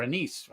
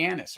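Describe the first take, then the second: First: Anise with weak first syllable and long ee; anise as uh-NEESE. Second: Anise with stressed short first vowel, AN-iss. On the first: Whisky taster offering the other way to say it, anise as uh-NEESE. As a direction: say anise as uh-NEESE, stressed at the end. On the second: Whisky taster offering both ways to say it, anise as AN-iss. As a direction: say anise as AN-iss, ending in a weak syllable. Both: Shown as a demonstration. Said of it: "however you wanna, ho-, however you wanna say it".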